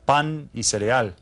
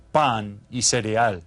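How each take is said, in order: Both takes have the same delivery.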